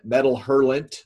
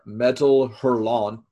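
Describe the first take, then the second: First: The name is pronounced in an American way. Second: The name is pronounced in a French way.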